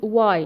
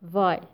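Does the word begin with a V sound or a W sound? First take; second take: W sound; V sound. First: The word begins with a rounded W sound. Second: The word begins with a buzzing V sound. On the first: The speaker calls it right. "All WH questions should be pronounced as W sound" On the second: The speaker calls it wrong. "not why"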